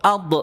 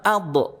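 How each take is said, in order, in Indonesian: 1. Konsonan akhir dilepas dengan memantul. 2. Konsonan akhir dilepas dengan memantul.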